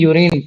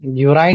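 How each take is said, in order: First: The second syllable has a short 'i' vowel. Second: The second syllable has a long 'eye' vowel. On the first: The speaker calls it right. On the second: The speaker calls it wrong.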